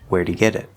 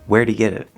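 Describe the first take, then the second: First: The stress falls on the word get. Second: The stress falls on the word where'd. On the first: "if we say this normally" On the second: "If we were to move it to where'd, it would sound like this"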